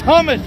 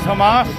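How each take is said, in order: First: The word is said with the usual pronunciation. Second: The word is said with a foreign-accented pronunciation. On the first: The staff corrected the name of the dish. The speaker calls it right. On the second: The speaker did not know the dish's name. The speaker calls it wrong.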